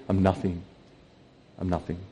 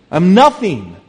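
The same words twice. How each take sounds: First: Low, hushed self-abasement; quiet, lowered confession; humble admission. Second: Raised, loud declaration of humility; loud, emphatic admission; emphatic self-abasement. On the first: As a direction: let it drop away softly. Same words repeated as humble admission. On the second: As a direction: punch it out high and loud. Undercutting the mock boast, emphatic. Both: Acted.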